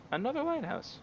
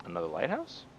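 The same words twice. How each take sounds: First: Squeaky exasperated echo; high exasperated repeat. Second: Said in the usual way. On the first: Real, not acted.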